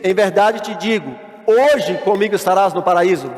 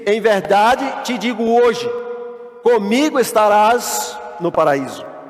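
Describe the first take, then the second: First: The pause comes before the word hoje. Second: The pause comes after the word hoje. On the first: Paradise is promised for that same day. The speaker calls it wrong. "Veja que a vírgula está aqui, te digo" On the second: The promise is made today, with paradise coming later. The speaker calls it right. "vamos trocar a vírgula de lugar"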